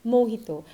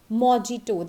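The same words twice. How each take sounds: First: Mojito as mo-HEE-to; exact pronunciation. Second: Mojito as "mo-JEE-to"; wrong pronunciation. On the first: Teacher giving the exact pronunciation, correctly said. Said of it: "exact pronunciation is". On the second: Teacher showing how it is never said, mispronounced. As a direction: say mojito with a hard English j. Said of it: "It is never said as". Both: Shown as a demonstration.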